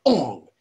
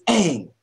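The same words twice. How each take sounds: First: "Ong" with an open "ah" vowel; mispronounced Aang. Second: "Aang" with the vowel of "hang"; correct Aang pronunciation. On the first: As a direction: say "Ong" as the wrong name, like "song". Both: Shown as a demonstration. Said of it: "the way that you pronounce the names".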